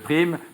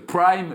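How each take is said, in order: First: The word is pronounced with French sounds. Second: The word is pronounced with English sounds. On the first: The bonus paid to employees. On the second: The evening television slot.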